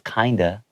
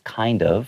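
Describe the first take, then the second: First: It is run together as one reduced word. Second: It is said as two separate full words.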